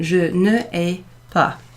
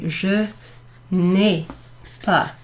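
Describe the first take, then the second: First: Ne is said as a separate full syllable. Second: Ne is shortened and joined to the vowel. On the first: The speaker calls it wrong. "which is a bit awkward" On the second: The speaker calls it right. "Instead, I'm going to say"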